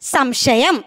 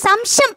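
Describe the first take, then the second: First: The hissing consonant sounds like a clear sh. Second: The hissing consonant sounds like a plain s. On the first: The speaker calls it right. "ശശാങ്കന്റെ ശ" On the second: The speaker calls it wrong. "സംശയം അല്ല"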